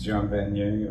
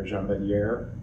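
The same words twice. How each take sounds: First: Jean Vanier said the French way, "zhahn van-YAY"; French pronunciation. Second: Jean Vanier said the English way, "jahn van-YAIR"; hard "j" in Jean, sounded r ending Vanier; anglicized pronunciation. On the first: Speaker unsure of the name tries Jean Vanier in French, "zhahn van-YAY". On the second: Speaker unsure of the name offers Jean Vanier anglicized, "jahn van-YAIR". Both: Shown as a demonstration. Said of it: "exactly how it's pronounced".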